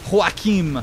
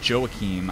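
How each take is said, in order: First: The name begins with an H sound. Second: The name begins with a J sound. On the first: "like the Spanish version" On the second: "It could just be Joachim"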